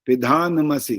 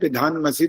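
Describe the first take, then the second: First: The n is said with a full vowel after it. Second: The n is said with no vowel after it. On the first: The speaker calls it right. "न पूरा आएगा यहाँ पर भी" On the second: The speaker calls it wrong. "अगर ऐसे बोलेंगे पिधान मसी तो न हलन तो रहा है"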